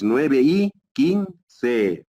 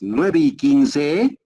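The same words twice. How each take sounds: First: The voice falls at the end. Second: The voice rises at the end. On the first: The speaker calls it right. "para abajo baja la unidad tonal" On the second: The speaker calls it wrong. "no me dices así"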